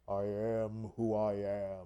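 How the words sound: It is said in a deep, stately voice.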